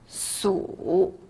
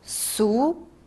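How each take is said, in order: First: The pitch dips low, then rises. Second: The pitch rises from middle to high.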